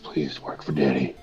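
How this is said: It is said in a seductive, sexy way.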